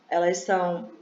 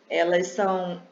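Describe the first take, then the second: No difference in how they are said.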